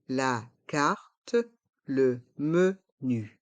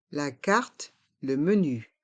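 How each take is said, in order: First: "La carte, le menu" in slow separate syllables; slow model pronunciation. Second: Said in the usual way. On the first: Shown as a demonstration. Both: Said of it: "Prononçons".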